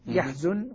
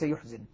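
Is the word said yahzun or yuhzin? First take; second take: yahzun; yuhzin. First: The word is said yahzun, with a and u. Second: The word is said yuhzin, with u and i. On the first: This is the reading all reciters agree on here. The speaker calls it right. "تقرأ بالفتح والضم يحزن" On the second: This is one school's reading used elsewhere. The speaker calls it wrong. "وليس يحزن"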